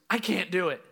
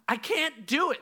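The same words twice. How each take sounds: First: It sounds fairly calm, with little urgency. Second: It sounds urgent and pressing.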